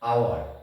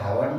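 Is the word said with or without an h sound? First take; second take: without h; with h. First: The word starts with a vowel sound. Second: The word starts with an h sound. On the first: The speaker calls it right. "এইচটা sound হয় না" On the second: The speaker calls it wrong. "এটা হাওয়ার নয়"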